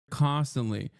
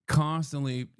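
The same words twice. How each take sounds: The two takes are said the same way.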